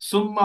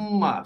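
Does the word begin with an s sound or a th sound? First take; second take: s sound; th sound. First: It begins with a plain s sound. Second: It begins with a th sound between the teeth. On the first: The speaker calls it wrong. "সুম্মা হবে না।" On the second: The speaker calls it right. "এরকম।"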